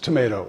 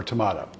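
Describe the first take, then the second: First: "tomato" said tuh-MAY-toh; long ay in the middle of "tomato". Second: "tomato" said tuh-MAH-toh; broad ah in the middle of "tomato". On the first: Retelling Flip Wilson's joke answer, tomato as tuh-MAY-toh. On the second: Retelling Flip Wilson's joke answer, tomato as tuh-MAH-toh. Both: Retold or imitated. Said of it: "Is what pronounced tomato or tomato".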